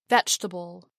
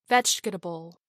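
First: The word is said with three syllables. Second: The word is said with four syllables. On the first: "then drop the unstressed vowel" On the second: "I will pronounce all the syllables first"

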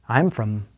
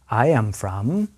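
First: The phrase is spoken quickly, contracted. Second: The phrase is spoken at moderate speed. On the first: "one more time at a fast pace" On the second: "listen and repeat at a slightly faster pace"

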